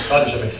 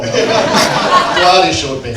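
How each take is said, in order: First: Said in the usual way. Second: Laughing. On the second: Real, not acted. Host laughs at his mistake.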